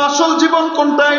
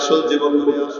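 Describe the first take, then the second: First: It is said at normal loudness. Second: It is said quietly and softly.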